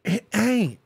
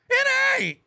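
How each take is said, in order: First: Said in the usual way. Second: Pitched up high, mocking; high defiant taunt. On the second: Shown as a demonstration. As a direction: sing it out high.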